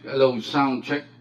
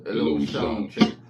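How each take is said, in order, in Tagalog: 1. Plain lang ang boses, walang idinagdag na effect. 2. Ibinaba ang boses at malalim na ang tunog. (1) "regular na sound niya na without any effects" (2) "mababa din yung effects"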